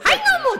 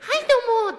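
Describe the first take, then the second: First: It is said loudly, in full voice. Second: It is said softly, toned down.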